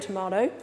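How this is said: It is said in an Australian accent.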